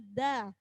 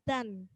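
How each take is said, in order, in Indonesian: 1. Suku kata ini berakhir dengan vokal terbuka. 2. Suku kata ini berakhir dengan bunyi n. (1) "maka bunyinya da" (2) "bukan dan"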